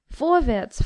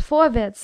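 First: Impatient call, pitched higher; the king pressing the dwarf, impatient. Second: Impatient bark, louder; the king pushing harder, louder and impatient. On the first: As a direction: hurry him up. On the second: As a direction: snap it out to hurry him. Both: Acted. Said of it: "sagte der König ungeduldig".

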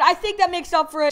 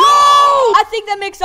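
First: Said in the usual way. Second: Drawn-out shout, louder, slow; hammed-up slow shout; slow hyped shout. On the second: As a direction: belt it out slowly like a victory call. Exaggerated slow shouted take.

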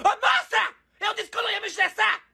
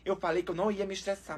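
First: High-pitched comic outburst; exasperated yelling. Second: Low, soft, resigned complaint; deflated calm. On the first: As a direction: lose patience and shriek it. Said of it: "eu tô gritando". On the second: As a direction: say it under control after an outburst. Calms down after the shouting. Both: Real, not acted.

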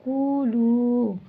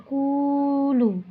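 First: কুলু held very long and slow, chanted; very elongated recitation. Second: কুলু slow, its vowel drawn out like Quran recital; elongated recitation. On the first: Teacher repeats কুলু, drawing it out very long. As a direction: draw the vowel of কুলু out very far. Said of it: "এভাবে আমরা টেনে পড়বো". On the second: Teacher shows pupils how to draw out কুলু. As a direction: stretch the long vowel of কুলু. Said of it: "টেনে পড়বো". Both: Shown as a demonstration.

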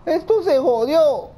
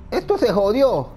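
First: Higher, louder, slow despairing cry; panicked cry. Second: Said in the usual way. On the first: Real, not acted. Gamer wails at the clock, panicked cry. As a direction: wail that it's all ruined.

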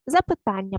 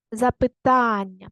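First: Said in the usual way. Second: Запитання with a long stressed ТА; stress on ТАН. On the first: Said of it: "Поставте наголос". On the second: Shown as a demonstration. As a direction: stretch the third syllable of Запитання, slowly. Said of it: "ось так маємо наголосити". (Запитання з протяжним наголосом на ТА)

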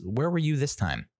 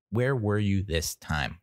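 First: Pitched up, teasing question; mock high scolding. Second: Slowed, level, pointed repeat; slower repeat. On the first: To the dog that never barked, high mock scolding. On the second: Retold or imitated. To the dog that let them down, slow pointed repeat. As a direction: drop back down and slow it.

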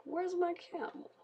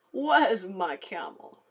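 First: Much higher squeaky mob quote; lightly voiced mob missing its camel. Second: Slow, louder whiny mob line; lightly voiced game mob asking for its camel; mock mob voice. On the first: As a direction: pitch it up like a silly game mob. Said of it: "then they're like". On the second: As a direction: drag it out like a lost nomad mob. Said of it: "Which I just said".

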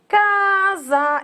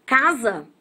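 First: "casa" slowly stretched, CA drawn out long; slow teacher's demo of "casa", first syllable prolonged; stress on CA. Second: Said in the usual way. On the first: Shown as a demonstration. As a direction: hold the first syllable of "casa" to show it is the strong one. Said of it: "é a sílaba mais forte". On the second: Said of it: "a sílaba tônica é o K".

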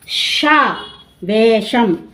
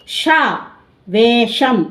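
Both takes have the same delivery.

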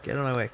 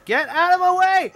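First: Said in the usual way. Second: Barbarian. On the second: Acted. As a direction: bellow it like a brute shoving through. Voicing barbarian character shouting.

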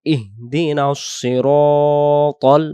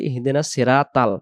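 First: "ইহদিনাস সিরাতাল" chanted slowly as ihdinas-siro-tol; correct heavy letters. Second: "ইহদিনাস সিরাতাল" spoken quickly as hindenas seratal; mistaken light letters. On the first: Teacher modelling the right reading, "সিরাতাল" slow, rounded siro-tol. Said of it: "সহি শুদ্ধ উচ্চারণ হবে". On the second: Teacher showing the common mistake, "সিরাতাল" as flat seratal. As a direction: use thin a and light t in "সিরাতাল". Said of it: "অক্ষরটা তখন ভুল হয়". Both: Shown as a demonstration.

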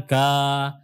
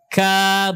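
First: "ka" with a heavy, backed a; thick ka, wrong. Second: "Ka" with a thin, front a, held long. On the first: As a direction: thicken the a of "ka" like a mistaken reading. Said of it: "Ka bukan ka". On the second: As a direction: say "Ka" lightly, tongue relaxed. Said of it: "Jadi dibaca tipis semuanya, rileks". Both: Shown as a demonstration.

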